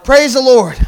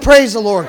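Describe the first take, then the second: First: Loud call to the congregation. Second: Repeated call with a laugh. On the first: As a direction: call it out for a response. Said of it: "I said, Praise the Lord". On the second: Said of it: "I said". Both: Shown as a demonstration.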